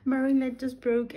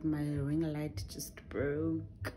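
First: Higher, louder exasperated cry; exasperated outburst. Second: Said in the usual way. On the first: Real, not acted. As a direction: blurt it out in disbelief. Repeats complaint louder after laugh.

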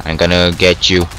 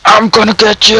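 First: Said in the usual way. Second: High-pitched playful threatening yell; battle cry. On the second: Pretend. Gamer threatening an opponent, battle cry. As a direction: yell it like charging at a rival. Threat repeated, escalating in game.

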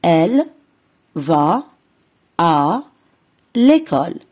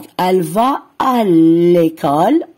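First: Slow split reading for pupils; word by word repeat. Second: Teacher modelling "va" word by word; slow model reading. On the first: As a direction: say "elle", "va", "à", "l'école" with pauses between. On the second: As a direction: read "elle va à l'école" slowly and clearly. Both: Shown as a demonstration. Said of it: "نعيد".

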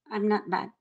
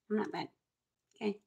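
First: Said in the usual way. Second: Quiet. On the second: Real, not acted. Repeated denial, softer.

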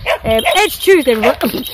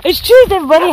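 First: Said in the usual way. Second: High, laughing it's Tuesday; laughing greeting. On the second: Shown as a demonstration. Vlogger redoing her greeting to viewers, laughing and high. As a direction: giggle through the greeting.

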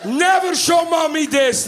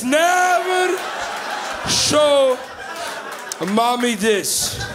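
First: High, slowed mock-dad warning; urgent warning. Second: "Never", "show", "mommy this" split by long pauses; word-by-word warning. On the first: Dad warns the kids after the video, shocked. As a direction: warn in shock, in one run. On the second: Retold or imitated. Dad repeats his warning to the kids, slow and emphatic.

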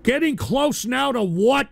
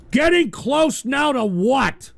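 First: Said in the usual way. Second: "Getting close now to what?" repeated slowly, every word drawn out; slow repeated question. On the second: Real, not acted.

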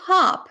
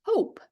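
First: "Hop" with short American ah-like vowel, pitched high; short-vowel "Hop", higher and louder. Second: "hope" with the vowel gliding oh-oo; long-vowel "hope", silent final e. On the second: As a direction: say "hope" with the alphabet-name O. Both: Shown as a demonstration. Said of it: "перетворюється на hope".

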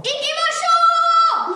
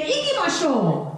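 First: Much higher, slow, sung out; drawn-out singsong battle cry; rallying cry. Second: Said in the usual way. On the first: Shown as a demonstration. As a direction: call the troops to go.

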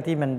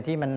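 Both takes have the same delivery.

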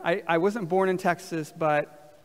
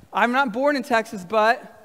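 First: Said in the usual way. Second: Raised pitch, left open for the room; livelier prompt. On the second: Shown as a demonstration. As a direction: say it with more life, inviting them to finish. Livelier retry after asking for life.

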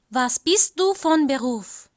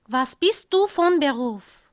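No difference in how they are said.

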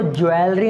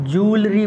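First: ज्वेलरी said as "jwel-ri" with a w glide; wrong pronunciation. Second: जूलरी said slowly as "jool-ri", long oo; correct pronunciation. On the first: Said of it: "गलत, इसको ज्वेलरी नहीं पढ़ते हैं". (गलत उच्चारण ज्वेलरी, "ज्वेल-री") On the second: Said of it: "जूलरी पढ़ते हैं". (सही उच्चारण जूलरी, धीरे "जूल-री") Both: Shown as a demonstration.

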